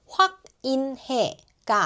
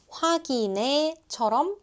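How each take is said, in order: First: The h sound is kept clearly. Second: The h sound is dropped and the syllables linked. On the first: The speaker calls it wrong. "확인해가 아니라" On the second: The speaker calls it right. "확인해처럼 들릴 거예요"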